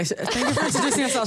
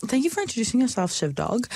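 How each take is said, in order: First: Fast, laughing through the words; amused do-over; laughing retake. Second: Said in the usual way. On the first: Real, not acted. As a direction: restart the thanks, giggling.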